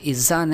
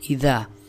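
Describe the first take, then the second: First: The middle consonant is a z sound. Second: The middle consonant is a soft th sound. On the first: The speaker calls it wrong. "ज़ा नहीं पढ़ना, इज़ा नहीं" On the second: The speaker calls it right. "बल्कि इज़ा"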